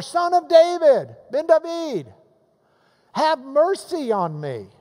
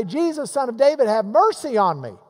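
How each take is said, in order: First: High, loud insistent call; crying out louder. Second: A raised, mildly pleading call; retold crying out. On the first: Retold or imitated. Blind beggar refusing to be hushed, crying out to Jesus. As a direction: raise the voice high and cry out over the crowd. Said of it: "he cries out even more". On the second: Blind beggar calling to Jesus as he passes, crying out. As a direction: call out higher, like a beggar in a crowd. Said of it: "he began to cry out and say".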